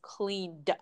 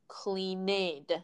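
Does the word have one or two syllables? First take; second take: one; two. First: The ending is a bare d sound, no vowel. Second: The ending is an extra syllable with a vowel. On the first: The speaker calls it right. "So it's just cleaned" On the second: The speaker calls it wrong. "There's no cleaned. You don't need to add a vowel there"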